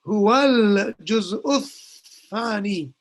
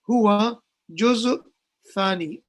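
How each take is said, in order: First: The article sound before 'juz' is pronounced. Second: The article sound before 'juz' is dropped. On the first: The speaker calls it right. "so you will say" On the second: The speaker calls it wrong. "almost like the alif lam wasn't pronounced"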